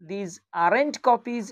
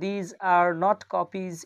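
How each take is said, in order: First: 'Are not' is shortened into one word. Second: 'Are not' is said as two full words.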